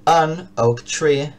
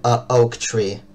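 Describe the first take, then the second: First: "an oak tree" drawn out very slowly, linking "an" and "oak"; very slow pronunciation demo. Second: Said in the usual way. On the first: Shown as a demonstration. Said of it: "que se dice". (pronunciación muy lenta de "an oak tree") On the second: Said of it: "Uno puede decir".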